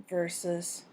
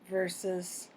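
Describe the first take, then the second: No difference in how they are said.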